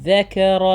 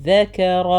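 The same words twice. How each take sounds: The two takes are said the same way.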